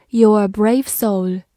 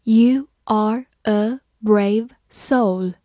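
First: Said in the usual way. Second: Slow model reading, each word separate. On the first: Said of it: "慢慢来读". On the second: Shown as a demonstration. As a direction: read it slowly, word by word. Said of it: "好，慢慢来读". (慢慢朗读，逐词分开)

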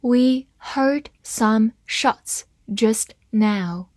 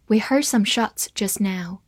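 First: Slow, careful read-aloud. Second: Said in the usual way. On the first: Shown as a demonstration. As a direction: read it slowly for the class. (慢速朗读) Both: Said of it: "好，慢慢来读".

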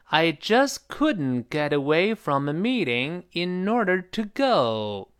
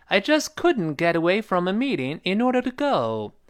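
First: Slow, drawn-out practice sentence; slow model reading. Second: Slightly faster. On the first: Teacher repeating the sentence for students, slowly. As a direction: take it slowly, word by word. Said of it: "好，再来一遍". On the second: Teacher reading the sentence once more, a bit faster. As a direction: model sentence at a brisker pace, higher pitch. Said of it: "语速再稍微快点". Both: Shown as a demonstration.

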